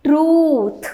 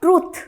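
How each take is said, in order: First: "truth" with a long double-o; correct pronunciation demo. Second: "truth" with a short vowel; mispronunciation demo. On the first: Teacher giving the right pronunciation, correct pronunciation demo. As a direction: stretch the oo in "truth". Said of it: "right pronunciation is". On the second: Teacher showing what it is not, mispronunciation demo. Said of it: "it is not truth". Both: Shown as a demonstration.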